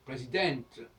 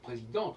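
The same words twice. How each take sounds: First: The 'en' vowel is pronounced as an oral vowel. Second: The 'en' vowel is pronounced as a nasal vowel. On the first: The speaker calls it right. "on va dire présidente en français" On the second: The speaker calls it wrong. "on ne devrait pas dire présidente"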